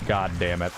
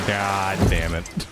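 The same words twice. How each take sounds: First: Said in the usual way. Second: Slow, dragged-out God damn it; drawn-out frustration. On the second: Real, not acted. Disappointed gamer, no boss after all, drawn-out groan.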